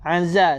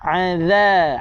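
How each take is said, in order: First: The middle consonant is a z sound. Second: The middle consonant is a th-like sound. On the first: The speaker calls it wrong. "gigi berjumpa dengan gigi. Salah" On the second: The speaker calls it right. "zal jangan dibaca dengan zai"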